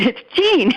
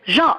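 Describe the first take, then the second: First: The name is pronounced the English way. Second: The name is pronounced the French way. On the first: The speaker calls it right. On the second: The speaker calls it wrong.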